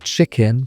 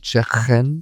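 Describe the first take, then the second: First: Said in the usual way. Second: "chicken" with a throaty Scouse K; Scouse accent. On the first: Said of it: "words like chicken". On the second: Shown as a demonstration. Teacher showing learners the K sound, Scouse accent. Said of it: "sounding like they begin in the throat".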